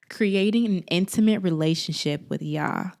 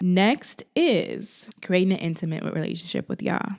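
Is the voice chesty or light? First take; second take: chesty; light. First: It is said in a fuller, chestier voice. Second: It is said in a lighter, plainer voice.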